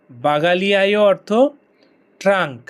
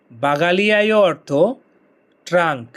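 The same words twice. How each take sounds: The two takes are said the same way.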